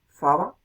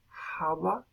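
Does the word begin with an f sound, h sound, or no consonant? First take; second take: f sound; h sound. First: The word begins with an f sound. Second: The word begins with a breathy h sound.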